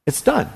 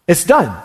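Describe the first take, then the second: First: It's done said softly, the word done rising; soft echo. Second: Said in the usual way. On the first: Shown as a demonstration. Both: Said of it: "notice the way he said that to us".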